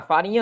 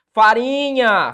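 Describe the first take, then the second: First: Said in the usual way. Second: "Farinha" slow and loud, RI stretched out; "Farinha" with a long, strong RI; stress on penultimate syllable. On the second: Shown as a demonstration. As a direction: draw out "Farinha" on its middle syllable. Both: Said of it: "paroxítona".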